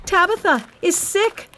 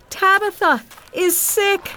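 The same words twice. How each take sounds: First: Urgent high shout. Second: Slower, high, loud cry of alarm; cried out. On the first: Anxious widow to all the poor widows, shouted alarm. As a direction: shout the news to the whole street. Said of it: "she shouted to all". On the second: Widow to church people standing nearby, slow drawn-out cry. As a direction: cry it out, stretching the words. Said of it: "she cried to the other church people". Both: A narrator's reading.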